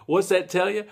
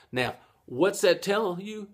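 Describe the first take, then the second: First: Louder question to viewers. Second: Said in the usual way. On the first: Shown as a demonstration. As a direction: ask it out loud to the class. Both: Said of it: "Am I asking myself?".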